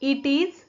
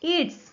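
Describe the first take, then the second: First: It is said as two full separate words. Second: It is said as one contracted syllable.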